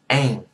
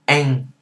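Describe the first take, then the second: First: It has an open 'a' vowel ending in ng. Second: It has an open 'a' vowel ending in ng.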